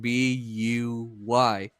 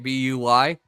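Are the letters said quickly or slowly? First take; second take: slowly; quickly. First: The letters are said slowly and separately. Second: The letters are run together quickly.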